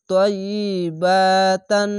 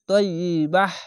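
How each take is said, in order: First: The word ends in a full tan sound. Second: The word ends in a soft h sound. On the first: The reciter joins this word to the next. "আর যদি মিলিয়ে পড়েন তাহলে" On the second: The reciter stops after this word. "এভাবে থেমে যাবেন।"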